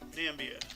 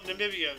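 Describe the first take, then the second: First: The name is said with three syllables. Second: The name is said with four syllables. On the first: The speaker calls it wrong. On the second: The speaker calls it right. "So there is no Nambia"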